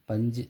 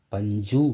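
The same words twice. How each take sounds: First: பஞ்சு with a brief, reduced u at the end; shortened final u. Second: பஞ்சு with the ending stretched to a full oo, panjoo; wrongly full u. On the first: Teacher showing the correct பஞ்சு, short final u. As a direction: barely round the சு of பஞ்சு. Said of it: "பஞ்சுன்னு தான் உச்சரிக்கணும்". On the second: Teacher showing how not to say பஞ்சு, over-full final u. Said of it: "அப்படின்னு உச்சரிக்க மாட்டீங்க". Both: Shown as a demonstration.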